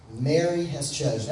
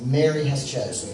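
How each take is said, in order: First: "Mary" stressed, falling at the end of "Mary has chosen."; emphasis on Mary has chosen. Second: "Mary" stressed, a touch louder for the crowd to echo "Mary has chosen."; leading a call and response. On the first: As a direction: lean on "Mary" and let "Mary has chosen." fall. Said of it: "I wanna emphasize the phrase". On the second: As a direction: give "Mary has chosen." to the congregation to repeat, "Mary" punched. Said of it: "Everybody say". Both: Shown as a demonstration.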